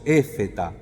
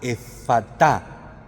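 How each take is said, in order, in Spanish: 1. La segunda vocal suena como una 'e'. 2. La segunda vocal suena como una 'a'. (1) "Nosotros lo castellanizamos un poco y decimos éfeta" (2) "en arameo se pronunciaría más como una A"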